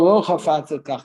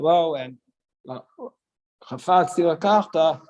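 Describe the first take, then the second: First: The words run together with no pause. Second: There is a pause after the first word. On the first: He does not want to marry her. "You have to put it all together" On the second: He does want to marry her. "So even if he would say like that"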